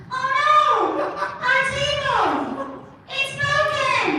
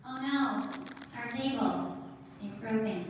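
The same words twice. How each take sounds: First: Put-on tiny kid voice. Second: Said in the usual way. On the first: Shown as a demonstration. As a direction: squeak it like a tiny child. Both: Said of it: "did you want me to sound like that guy".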